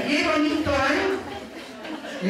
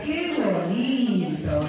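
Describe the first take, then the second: First: High, brisk sarcastic telling-off; reto, regañina. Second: Very drawn-out happy amazement; alegría y sorpresa. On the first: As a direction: scold with exaggeratedly raised pitch. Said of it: "Es un reto". (regaño exagerado, en tono agudo) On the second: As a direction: stretch the words in exaggerated delight. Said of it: "De alegría, de sorpresa". (asombro alegre, muy alargado) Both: Shown as a demonstration.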